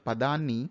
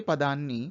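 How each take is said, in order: Both takes have the same delivery.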